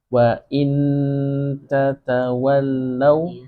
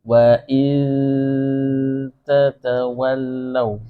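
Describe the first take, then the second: First: The n is pronounced clearly with the tongue touching. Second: The n is nasalized without the tongue touching.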